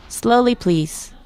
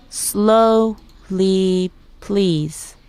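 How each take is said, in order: First: Said in the usual way. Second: "Slowly, please" drawn out very slowly; syllable by syllable. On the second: Shown as a demonstration. Teacher modelling "Slowly, please" for learners, syllable by syllable. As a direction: stretch each syllable of "Slowly, please" apart. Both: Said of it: "Let's break it down by syllable".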